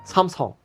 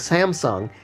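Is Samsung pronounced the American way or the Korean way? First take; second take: Korean; American. First: It is said with a Korean pronunciation. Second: It is said with an American English pronunciation. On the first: The speaker calls it right. "you gotta say it right" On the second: The speaker calls it wrong. "we were saying it wrong"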